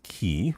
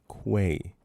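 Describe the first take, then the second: First: The word begins with a plain k sound. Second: The word begins with a kw sound. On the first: The speaker calls it wrong. "Not key. I don't know who says key" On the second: The speaker calls it right. "With a Q. Quay"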